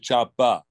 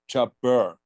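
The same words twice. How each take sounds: First: The word ends without any R sound. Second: The word ends with an audible R sound. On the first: "I just say chopper" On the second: "I don't say chopper, you know, with an R on the end"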